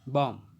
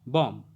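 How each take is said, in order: The two takes are said the same way.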